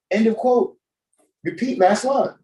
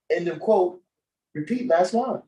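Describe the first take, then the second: First: Mock earnest Biden. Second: Hammed-up teleprompter read, up high; mock Biden reading. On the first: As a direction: read the cue line with fake conviction, pitched up. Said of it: "He said this shit like he meant it". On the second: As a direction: imitate a politician reading the cue aloud. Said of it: "he said it with charisma like that".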